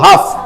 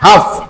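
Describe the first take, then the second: First: The L sound is left out entirely. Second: The same.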